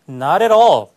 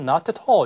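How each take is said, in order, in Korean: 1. 미국식 억양으로 말했습니다. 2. 영국식 억양으로 말했습니다.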